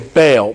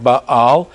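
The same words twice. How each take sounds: First: The word is said the common English way. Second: The word is said the older, original way. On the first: This is the customary modern pronunciation. "we usually say Baal" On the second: This is closer to how it was originally said. "the pronunciation is probably something more like Baal"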